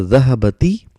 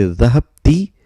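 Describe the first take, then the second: First: Dhahabati with an a between b and t; dhahabati, the b carrying a short a; fatha before ta. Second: Dhahabti with b closed straight onto ti; three-syllable dhahabti, the b vowelless; sukoon before ta. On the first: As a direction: say dhahabati in four syllables, opening ba before ti. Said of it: "lam kalima has got fatha". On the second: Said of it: "lam kalima has got a sukoon". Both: Shown as a demonstration.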